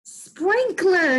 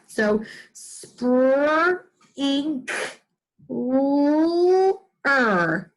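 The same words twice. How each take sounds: First: Sprinkler said high and bright; teacher celebrating the answer; excited answer. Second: Spur, ink, l-, er as separate pieces; teacher sounding out sprinkler; chunked sounding out. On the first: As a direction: announce Sprinkler with delight. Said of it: "What is it?". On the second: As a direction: sound each chunk apart. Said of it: "Do you hear that?". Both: Shown as a demonstration.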